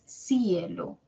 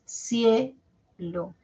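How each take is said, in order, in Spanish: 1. La i suena más fuerte que la e. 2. La e suena más fuerte que la i. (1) "no es cielo" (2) "La E suena más"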